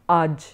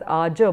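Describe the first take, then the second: First: The word ends on the bare consonant. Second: The word ends with a final vowel a. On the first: This is how it is pronounced here. "it's pronounced as aj" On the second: This is the Sanskrit pronunciation. "in Sanskrit you would pronounce that as aja"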